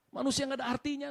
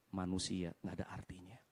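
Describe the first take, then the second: First: "Manusia nggak ada artinya" restated high in full voice; "Manusia nggak ada artinya" proclaimed at a raised pitch; declared aloud. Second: Low whisper, heavy with the realization; whispered sombre conclusion; hushed realization. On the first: Repeats the realization out loud. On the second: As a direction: let it sink to a soft, low near-whisper. Preacher's sober realization, hushed. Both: Real, not acted.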